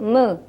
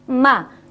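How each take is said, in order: First: The mouth barely opens, giving a half-closed vowel. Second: The mouth opens fully on the vowel. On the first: The speaker calls it wrong. "tidak boleh me ... takut membuka" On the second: The speaker calls it right. "Kalau memang fathah ya harus infitah"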